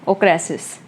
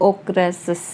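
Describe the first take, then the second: The two takes are said the same way.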